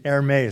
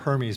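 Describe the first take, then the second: First: The first H is silent. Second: The first H is sounded. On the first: The speaker calls it right. "I recently found out the correct pronunciation" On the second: The speaker calls it wrong. "I called it Hermes before"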